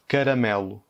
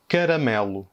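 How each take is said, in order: First: Caramelo redit, A non accentué en E; répéter Caramelo lentement; répétition portugaise. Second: Caramelo avec le premier A dit E; mot portugais. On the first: (Caramelo répété, A fermé en E) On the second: (caramelo en portugais du Portugal) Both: Shown as a demonstration. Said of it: "La première, c'est".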